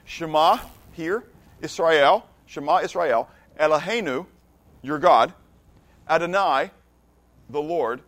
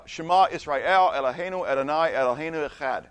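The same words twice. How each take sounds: First: Phrase by phrase, with pauses between; slow teaching recitation, each Hebrew phrase set apart; slower Hebrew. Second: Flowing recitation of the Shema in Hebrew. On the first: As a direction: spell it out slowly for non-Hebrew speakers. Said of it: "but I'll speak it slower". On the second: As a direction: recite it in Hebrew as one continuous line. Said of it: "that's how I would say it". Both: Shown as a demonstration.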